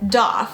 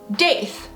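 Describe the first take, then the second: First: The vowel sounds like the one in goth. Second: The vowel sounds like the one in faith. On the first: "kind of rhymes with goth" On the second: "because it's gonna remind you of faith"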